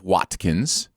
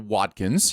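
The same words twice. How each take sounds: First: The t in the middle is crisp. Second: The t in the middle is softened. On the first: This is the original way of saying it. "those sharp uh, letters" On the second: This is how Americans say it. "it is very much an American thing to soften"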